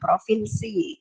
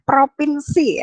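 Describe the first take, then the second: First: The middle consonant is an f sound. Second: The middle consonant is a p sound. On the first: This is the standard form. The speaker calls it right. "yang baku adalah provinsi" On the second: This is the nonstandard form. The speaker calls it wrong. "yang tidak baku adalah provinsi"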